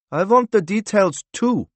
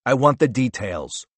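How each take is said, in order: First: Put-on high, louder accented interrupting voice; new character interjecting, high and louder; another voice. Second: Said in the usual way. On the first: A narrator's reading. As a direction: cut in with pitch raised well up. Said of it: "said another voice".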